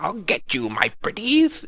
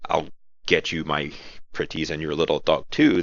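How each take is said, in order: First: High cackling witch, pitched way up; hunched over, crooning like a witch; wicked witch voice. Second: Said in the usual way. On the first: Shown as a demonstration. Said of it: "that wicked witch voice". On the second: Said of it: "that sounds kind of lame".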